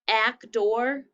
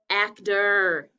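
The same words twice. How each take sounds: First: The final syllable sounds like 'or'. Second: The final syllable sounds like 'er'. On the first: The speaker calls it wrong. "Second syllable looks like or" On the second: The speaker calls it right. "It sounds like er"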